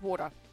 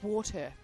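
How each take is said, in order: First: The middle consonant sounds like a d. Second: The middle consonant sounds like a t. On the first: The speaker calls it wrong. "water doesn't exist" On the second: The speaker calls it right. "It's water. Not D, but T"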